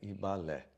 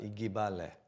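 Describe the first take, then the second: First: The g and b are joined, no vowel between. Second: The g and b are separated by a vowel. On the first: The speaker calls it right. "o G e o B, eles não pronunciam separados, é Ibalé" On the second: The speaker calls it wrong. "evitar de falar Igibalé"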